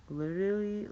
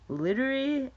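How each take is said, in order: First: Said in the usual way. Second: Put-on "literally" thrown up high and louder like a gushing valley girl; mock valley girl. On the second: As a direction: squeal "literally" in a higher, louder mock girly voice. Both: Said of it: "why do lassies say that?".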